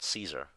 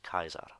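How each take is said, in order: First: It is said in the modern everyday way. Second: It is said in the classical Latin way. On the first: The speaker calls it wrong. "a lot of people would have said Caesar" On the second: The speaker calls it right. "in classical pronunciation would actually be pronounced Kaiser"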